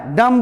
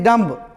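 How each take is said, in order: First: डम ending on m; silent b. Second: डम्ब with the b pronounced; wrong b sounded. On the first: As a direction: close डम on the m, no b. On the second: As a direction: add a b after the m in डम्ब. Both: Shown as a demonstration. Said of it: "ये नहीं डम्ब".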